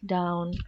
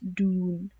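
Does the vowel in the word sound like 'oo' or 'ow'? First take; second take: ow; oo. First: The vowel is an 'ow' sound as in cow. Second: The vowel is an 'oo' sound as in moon. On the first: "in word down or town, something with O sound" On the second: "They will pronounce it as dune"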